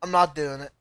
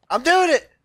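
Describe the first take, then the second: First: Deflated. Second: Higher, louder burst on "doing"; triumphant little cheer; excited. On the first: Gamer losing grip, deflated "not". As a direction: drop low and soft on "not". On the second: Gamer regaining the climb, excited cheer. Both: Real, not acted.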